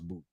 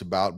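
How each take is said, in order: First: The vowel rhymes with 'boot'. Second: The vowel rhymes with 'out'. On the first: The speaker calls it right. "but it's it's pronounced Boot" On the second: The speaker calls it wrong. "We would pronounce about"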